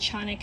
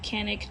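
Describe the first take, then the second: First: The name is said with a Turkish pronunciation. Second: The name is said with an English pronunciation.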